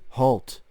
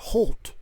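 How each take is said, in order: First: It is said flatly, with no emotion. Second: It is said with some emotion.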